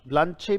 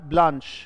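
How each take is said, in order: First: The word ends with an extra vowel sound. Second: The word ends without an extra vowel sound. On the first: The speaker calls it wrong. "ब्लांचे भी कुछ लोग पढ़ते हैं इसको" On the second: The speaker calls it right. "But ये उच्चारण है कार्ट ब्लांच"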